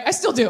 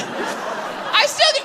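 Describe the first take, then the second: First: Said in the usual way. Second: "I still do" high, slow, breathless with laughter; laughing. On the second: Real, not acted. Correcting herself to the audience, "I still do" laughing. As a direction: say "I still do" through giggles. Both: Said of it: "I don't know why I said it like that".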